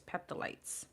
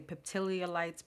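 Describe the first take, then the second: First: The word has no extra syllable in the middle. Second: The word has an extra syllable in the middle. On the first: The speaker calls it right. "but it's peptidites" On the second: The speaker calls it wrong. "I always want to say peptidiolites"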